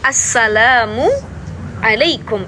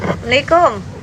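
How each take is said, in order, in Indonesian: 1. Diucapkan jelas, setiap kata terdengar terpisah. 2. Diucapkan santai seperti saat mengangkat telepon. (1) "harus jelas" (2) "kebiasaan kalau kita ngangkat telepon"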